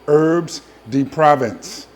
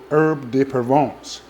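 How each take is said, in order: First: It is said in a New Jersey accent. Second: It is said in the speaker's plain accent.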